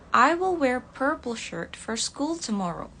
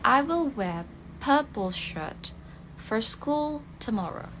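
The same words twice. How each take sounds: First: American accent, with r sounds pronounced. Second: British accent, with r sounds dropped.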